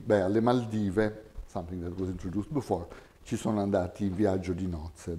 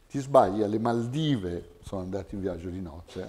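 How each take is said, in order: First: Italian topic intonation on "alle Maldive"; topic-comment contour. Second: Correcting someone: stress "Maldive", deflate the rest; exaggerated corrective focus. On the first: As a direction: say "alle Maldive" as the given topic, then let the comment rise and fall. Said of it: "Twenty-nine B". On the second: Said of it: "I'm exaggerating the contour a little bit". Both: Shown as a demonstration.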